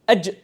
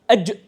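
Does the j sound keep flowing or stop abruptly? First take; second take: stopped; stopped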